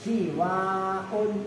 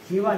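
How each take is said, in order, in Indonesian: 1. Vokal setelah w itu panjang. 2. Vokal setelah w itu pendek. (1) "Nah itu kan namanya mat" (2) "kadang-kadang suwan pendek"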